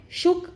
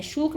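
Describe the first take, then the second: First: शुक with a short clipped u, like book; correct short vowel. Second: शूक with a long drawn-out oo, like moon; wrong long vowel. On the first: Teacher showing students the right way, short u. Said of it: "इसको हम शुक बोलते हैं". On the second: Teacher showing students the wrong way, long oo. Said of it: "शूक नहीं बोलेंगे". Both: Shown as a demonstration.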